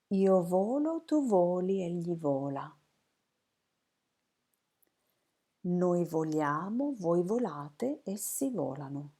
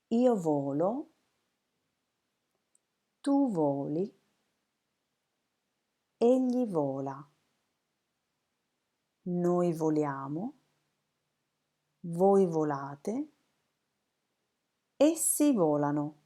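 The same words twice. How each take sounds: First: It is said quickly. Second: It is said slowly.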